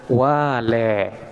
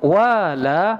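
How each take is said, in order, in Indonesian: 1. Vokal akhirnya condong ke bunyi e. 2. Vokal akhirnya adalah bunyi a terbuka.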